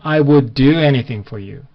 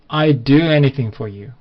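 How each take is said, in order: First: 'I would' is said in full, two words. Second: 'I would' is shortened to one syllable, 'I'd'. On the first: "I would라고 발음하셔도 되는데" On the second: "원어민들은 또 이제 이거를 짧게 발음을 많이 하거든요"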